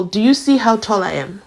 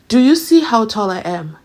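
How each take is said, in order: First: Said in the usual way. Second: A bit louder, pushing on see; mock courtroom swagger; bolder repeat. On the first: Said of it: "Umnisi said". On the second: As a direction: press the question harder.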